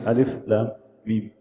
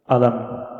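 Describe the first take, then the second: First: Each letter name is said separately. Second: The letters are joined into one short word. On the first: The speaker calls it right. "we say alif lam mim" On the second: The speaker calls it wrong. "instead of saying alam"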